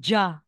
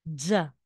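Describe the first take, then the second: First: It begins with an English-like 'j' sound. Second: It begins with a buzzing 'dz' sound. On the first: The speaker calls it wrong. "Hindi siya ja" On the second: The speaker calls it right. "T S or dizzy ang babasahin natin. Like Z"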